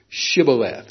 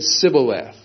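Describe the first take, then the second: First: The word begins with an sh sound. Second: The word begins with a plain s sound. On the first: The speaker pronounces the word as it was supposed to be said. The speaker calls it right. "they were supposed to say Shibboleth" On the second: The speaker belongs to the tribe that could not pronounce the word. The speaker calls it wrong. "They said Sibboleth"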